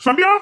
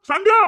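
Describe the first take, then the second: First: Said in the usual way. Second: Much higher, louder call of her name; alarmed husband calling out to his wife. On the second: Acted. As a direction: shout her name across the house.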